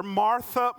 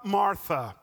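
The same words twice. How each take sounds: First: Martha called out higher and louder; calling her name. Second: Gentle repeat. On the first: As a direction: call Martha to get her attention. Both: Retold or imitated. Jesus addressing Martha.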